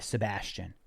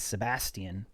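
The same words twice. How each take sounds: First: The name is said the American way. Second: The name is said the British way. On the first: "in the U S, our version of English, we would say" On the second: "if that person lives in the U K and they say their name is"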